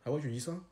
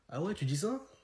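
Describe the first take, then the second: First: It is said in a plain, casual, matter-of-fact way. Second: It is said in a teasing, flirtatious way. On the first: A friend said something surprising. "entre potes, quand on les utilise" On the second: The speaker is charmed and is flirting. "Quand c'est une meuf, vous le dites pas comme ça"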